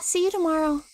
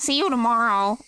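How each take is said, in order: First: It is said in a natural, unaffected voice. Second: It is said in a put-on nerdy voice. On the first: The speaker calls it right. "Real voice, canon" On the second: The speaker calls it wrong. "how do I do a nerd voice?"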